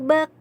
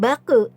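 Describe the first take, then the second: First: The final k stops cleanly with no vowel. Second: The final k bounces into a short vowel. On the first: The speaker calls it right. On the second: The speaker calls it wrong.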